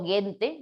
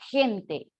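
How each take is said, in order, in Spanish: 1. Empieza con un sonido g fuerte. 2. Empieza con un sonido j gutural. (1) "¿Ustedes creen que ahí la G suena como G? Yo digo gente" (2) "decimos gente, gesto, gimnasio. Ahí la G suena como J"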